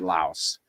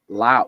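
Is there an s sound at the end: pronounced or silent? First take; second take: pronounced; silent. First: The word ends with an s sound. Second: The word ends without an s sound. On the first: This is how Westerners say it. "Westerners pronounce it Laos" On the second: This is how locals say it. "they don't pronounce the S"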